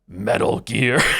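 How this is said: It is said in a growly, silly monster voice. "how do I calibrate into Cookie Monster voice?"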